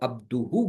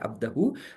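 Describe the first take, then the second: First: The middle vowel is an 'u' sound. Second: The middle vowel is an 'a' sound. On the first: The speaker calls it right. "अब्दुहू बोलना है" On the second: The speaker calls it wrong. "अब्दहू नहीं बोल सकते"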